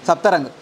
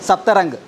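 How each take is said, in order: The two takes are said the same way.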